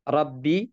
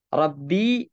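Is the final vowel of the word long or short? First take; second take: short; long. First: The word ends in a short i vowel. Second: The word ends in a long ii vowel. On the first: "tanpa ya" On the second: "dengan ya tapi sukun"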